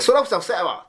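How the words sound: It is said in Kansai dialect. "関西弁でやってみますか"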